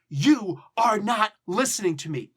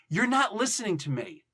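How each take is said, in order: First: You are is said as two words. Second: You are is contracted to you're. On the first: It is an accusation meant seriously. "That's accusatory. And that's like serious" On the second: It is a less forceful remark. "it changes it"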